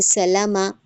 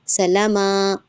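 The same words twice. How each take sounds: First: Said in the usual way. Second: "सलामा" with the vowels dragged out long; wrongly stretched vowels. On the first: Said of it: "इसको हमने खींचना नहीं होता". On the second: Shown as a demonstration. Teacher showing students what not to do, wrongly stretched vowels. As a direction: draw out the endings in "सलामा" as a mistake. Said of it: "ऐसे नहीं खींचना".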